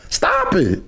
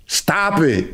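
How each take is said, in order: First: A sudden whispered stop it. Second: Said in the usual way. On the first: Real, not acted. Whispered then repeated plainly.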